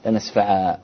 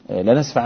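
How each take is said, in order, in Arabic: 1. تنتهي الكلمة بحرف مدّ طويل، وهو الألف. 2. تنتهي الكلمة بصوت نون ممتدّ.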